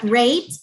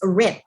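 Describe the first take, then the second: First: The syllable has a long 'ay' vowel. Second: The syllable has a short 'i' vowel. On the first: The speaker calls it wrong. "not rate" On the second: The speaker calls it right.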